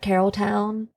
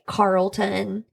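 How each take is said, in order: First: Three syllables, ending with a full 'town' sound. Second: Two syllables, ending with a reduced 'ton' sound. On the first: "people call it Carrolltown" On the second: "or they'll say like Carlton"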